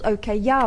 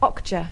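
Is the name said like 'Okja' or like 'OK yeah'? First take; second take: OK yeah; Okja. First: The name sounds like the words 'OK yeah'. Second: The name is said as the single word 'Okja'. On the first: This is how the speaker wrongly assumed it was said. The speaker calls it wrong. "I thought it was called OK Yeah" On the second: This is the actual name of the film. The speaker calls it right. "but it's Okja"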